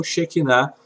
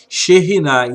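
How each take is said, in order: First: "xequinar" with a hard k in the middle; common mispronunciation. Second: "xerrinar" with a guttural r sound in the middle; correct pronunciation. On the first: Teacher quotes what is generally heard, mispronounced "xequinar". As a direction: say "xequinar" with k, not rr. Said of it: "como geralmente nós ouvimos". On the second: Teacher shows students the correct Hebrew word, careful pronunciation of "xerrinar". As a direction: say "xerrinar" with rr, not k. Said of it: "a pronúncia da expressão correta é". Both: Shown as a demonstration.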